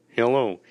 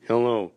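The two takes are said the same way.

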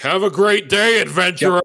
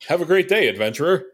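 First: It is said in an aggressive tone. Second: It is said in a friendly, plain tone.

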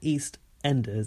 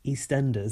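First: Every sound is said fully and carefully. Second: Sounds are relaxed and run together. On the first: This is how the name is written. "Like that is how it's written" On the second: This is how locals actually say it. "our way is so like lax that it comes out just like that"

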